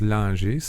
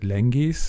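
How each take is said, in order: First: The name is pronounced with a French sound. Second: The name is pronounced with a German sound. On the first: "If you're French, it's Langees" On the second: "Germans pronounce it Lengees"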